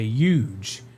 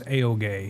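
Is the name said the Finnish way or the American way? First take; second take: American; Finnish. First: The name is pronounced the American way, like huge. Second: The name is pronounced the Finnish way. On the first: "but Americans say" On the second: "The Finnish way to pronounce my name is"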